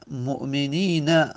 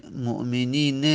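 First: Slow مؤمنین, said mu'minīna; final fatha. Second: مؤمنین with long ī and -ne; irregular final kasra. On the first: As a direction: end مؤمنین on short a after a long ī. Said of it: "فتحه داره". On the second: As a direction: say مؤمنین as mu'minīne, ending in short e. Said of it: "کسره بدیم شاذه". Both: Shown as a demonstration.

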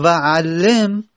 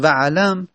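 First: وعلم drawn out very slowly as va-ʕal-lim, with a doubled lam and an i before the final m; pronounced va-ʕallim. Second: وعلم said as va-ʕlam, short, with no vowel after the ayn and a short a on the lam; pronounced vaʕlam. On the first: Teacher contrasting it with vaʕlam for students, slow and drawn out. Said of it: "عین رو فتحه بدیم، لام رو تشدید و کسره". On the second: Teacher showing students the form vaʕlam, said crisply. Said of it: "وو رو فتحه بدیم، عین رو ساکن بکنیم". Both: Shown as a demonstration.

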